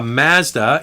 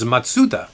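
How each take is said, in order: First: It is pronounced the Canadian way. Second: It is pronounced the original Japanese way. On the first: "we're reviewing a Mazda in Canada" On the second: "but the real name is Matsuda"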